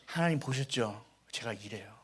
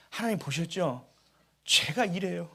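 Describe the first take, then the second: First: Sheepish confession. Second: Said in the usual way. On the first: Retold or imitated. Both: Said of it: "하나님과 더 가까워졌습니다".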